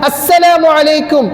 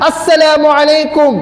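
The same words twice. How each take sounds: The two takes are said the same way.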